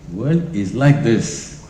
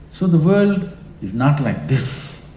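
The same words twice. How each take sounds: First: Slow emphatic statement. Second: Slow emphatic denial. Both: Shown as a demonstration.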